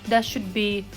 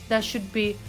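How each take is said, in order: Both takes have the same delivery.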